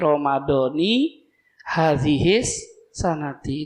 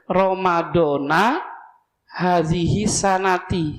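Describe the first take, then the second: First: Both words end with an i vowel. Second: The first ends in a, the last in i. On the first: The speaker calls it right. "kasroh lagi" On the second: The speaker calls it wrong. "Yang salah yang ini"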